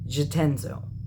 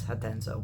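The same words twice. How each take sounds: First: The name is said with an English pronunciation. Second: The name is said with a Spanish pronunciation. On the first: "if I'm saying that right" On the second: "if it's Spanish, it's Spanish, it's Jatenzo"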